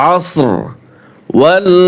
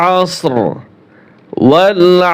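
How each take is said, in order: Both takes have the same delivery.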